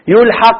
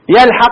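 First: The verb is vowelled as a passive form. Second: The verb is vowelled as an active form. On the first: The word is attached by someone unnamed. "يلحق باب فعل مجهول" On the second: We actively attach the word ourselves. "يلحق معلوم"

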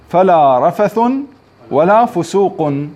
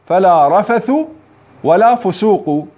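First: The nouns end with -un, with nunation. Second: The nouns end with -a, without nunation. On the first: This is the reading of Ibn Kathir and Abu Amr. "إيش قرأوها؟" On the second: This is the reading of the other readers. "وقرأ الباقون بالفتح من غير تنوين"

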